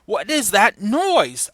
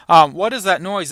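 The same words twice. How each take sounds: First: Slow, drawn-out alarm on noise; slow stage read of the line; slow dramatic question. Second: Said in the usual way. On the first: Acted. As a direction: let the question hang slowly.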